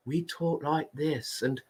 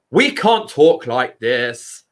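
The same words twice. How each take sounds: First: Much softer, timid tiny voice; shy mouse voice. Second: Said in the usual way. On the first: Shown as a demonstration. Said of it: "we have the mouse voice".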